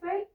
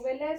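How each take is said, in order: First: The word ends on a consonant, vowel silent. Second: The word ends with an extra pronounced vowel. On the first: The speaker calls it right. "suena como fel" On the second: The speaker calls it wrong. "no suena como belé"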